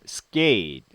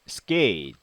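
The two takes are said the same way.

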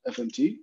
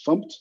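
First: It is spelled out as separate letters. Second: It is said as one single word. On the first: The speaker calls it wrong. "not FMT" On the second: The speaker calls it right. "the right way to say this is FUMPT"

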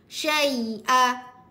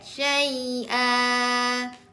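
First: The final vowel is cut off abruptly. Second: The final vowel is held for two counts. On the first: The speaker calls it wrong. "Marah sangat tu" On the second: The speaker calls it right. "Dua harokat"

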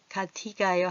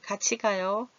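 First: 같이 is said with a plain t sound. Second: 같이 is said with a ch sound. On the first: The speaker calls it wrong. "같이 가요 하면 혀 짧은 소리가 나니까" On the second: The speaker calls it right. "구개음을 입 덮개, 지치치. 이 소리로 난다는 거지요"

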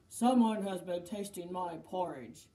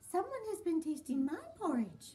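First: It is said in a great big voice. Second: It is said in a middle-sized voice.

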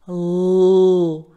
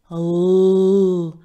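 Both takes have the same delivery.

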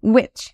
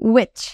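Both takes have the same delivery.

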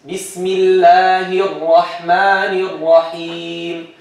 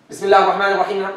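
First: The vowels are drawn out. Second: The words are said quickly.

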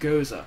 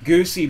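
First: It is said as go-zuh, ending in uh. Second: It is said as goosey, ending in ee. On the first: The speaker calls it right. "it's pronounced go-zuh. I googled it" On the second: The speaker calls it wrong. "I've been calling it like goosey beer my whole life"

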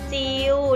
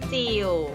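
First: The word is said with a mid level tone. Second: The word is said with a low tone. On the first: "เสียงสามัญหลักคำว่าจิ๋วคืออะไรคะเริ่มจากจิว" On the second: "เติมไม้เอกลงไปจะเป็นจิ๋ว"

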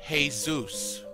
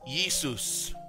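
First: The name is said in a non-Greek way. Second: The name is said in the Greek way. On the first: The speaker calls it wrong. "Jesus in Greek is not Jesus" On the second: The speaker calls it right. "It's Jesus"

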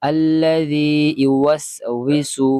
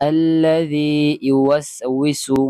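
No difference in how they are said.

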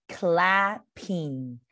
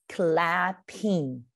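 No difference in how they are said.

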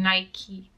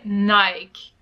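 First: The brand name uses the Canadian pronunciation. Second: The brand name uses the Belgian and English pronunciation. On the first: "when I was in Canada, everyone was saying Nike" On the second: "In Belgium, we say Nike. And I feel like in England, you say Nike as well"

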